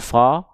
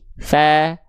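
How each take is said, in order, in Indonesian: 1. Vokalnya membulat, bunyinya seperti o. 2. Vokalnya tipis dan terbuka, seperti a. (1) "jangan dibaca fo" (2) "tipiskan pelafalannya, buka mulutnya sedikit senyum"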